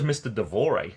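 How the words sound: The name is said with a French pronunciation. The speaker calls it wrong. "I gave it a French pronunciation"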